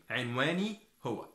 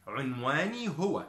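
First: عنواني with an "i" first vowel, "inwani"; Egyptian Arabic. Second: عنواني with a "u" first vowel, "unwani"; Modern Standard Arabic. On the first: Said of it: "In Egyptian we say the same". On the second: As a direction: say عنواني the formal way, opening on "un-". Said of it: "In modern standard Arabic". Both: Shown as a demonstration.

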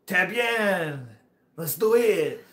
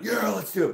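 First: Put-on high, loud, drawn-out French accent; hammed-up French-accented enthusiasm. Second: Put-on high, hollered enthusiasm without French accent; hammed-up bro cheer; mock gung-ho yell. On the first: French rider agreeing to the trail, imitated French accent. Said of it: "But he was like". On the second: Storyteller showing how he didn't say it, gung-ho voice. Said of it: "Or not, not".

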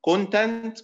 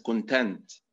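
First: Content with CON high and loud; stress on first syllable. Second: Adjective content, lean on TENT; stress on second syllable. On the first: Lecturer demonstrates the noun for students, CON stressed. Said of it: "content معناها محتويات". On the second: Lecturer demonstrates the adjective for students, stress on TENT. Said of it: "معناها بالنبر على المقطع الثاني سعيد أو راض". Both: Shown as a demonstration.

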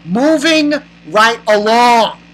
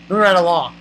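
First: "Moving right along" stretched slowly, louder; emphatic moving on. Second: Said in the usual way. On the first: Real, not acted. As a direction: draw out "Moving right along" with exasperated weight. Repeats it drawn out.

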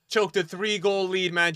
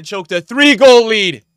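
First: Higher-pitched gloat, not shouted; raised, jeering trash talk; taunting. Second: High, very loud, drawn-out gloat; stretched-out jeering shout; taunting shout. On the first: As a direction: rub it in without yelling. Taunting opponent who lost lead. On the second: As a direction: yell it slowly to rub it in. Taunt repeated louder at opponent. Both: Real, not acted.

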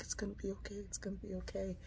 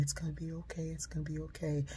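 First: Even fainter, barely-there comfort; softest soothing whisper. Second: Soft, hushed comfort, much softer; soothing whisper. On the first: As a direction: breathe it to a frightened child. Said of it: "She's like". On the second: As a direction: rock a scared child with your voice. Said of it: "her saying to me". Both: Retold or imitated.

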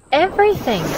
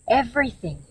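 First: "Everything" repeated high and loud with a falling end; "Everything" as a stressed, high dramatic echo; dramatic emphasis. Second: Said in the usual way. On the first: A narrator's reading. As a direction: hit "Everything" hard, pitched up high. Repeats word for dramatic effect.

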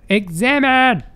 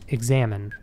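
First: Shouted, higher and louder. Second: Said in the usual way. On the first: Shown as a demonstration. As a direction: bark the command out. Shouts the prompt a second time.

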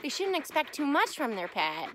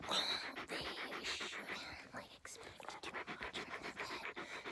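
First: Said in the usual way. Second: Soft whisper as the wise dog. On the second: Acted. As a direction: breathe it out as the dog. Voicing the dog.

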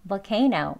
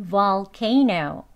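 First: "Volcano" short, first syllable weakened to "vuh"; conversational pronunciation. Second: "Volcano" very slow, with a full, long "vol"; careful learner pronunciation. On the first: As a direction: reduce "Volcano" to "vuh-CAY-no". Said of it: "대화 발음이죠". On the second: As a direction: stretch out every syllable of "Volcano". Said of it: "우선 배우는 발음입니다". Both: Shown as a demonstration.

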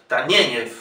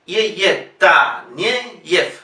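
First: Taneyev as one quick word, stressed on "NYE"; lower, falling Taneyev, run together; penultimate stress. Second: "ye, ye", then Taneyev broken into ta-nye-yef. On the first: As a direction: say Taneyev whole, stress on the middle. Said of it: "Una palabra llana". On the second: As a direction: sound out Taneyev by syllables. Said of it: "ye se pronuncia siempre ye". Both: Shown as a demonstration.

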